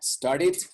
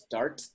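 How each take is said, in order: First: The e in the ending is pronounced. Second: The e in the ending is silent. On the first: The speaker calls it right. "Started would be the right, the right pronunciation" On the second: The speaker calls it wrong. "Doesn't make sense. Hard to pronounce that way"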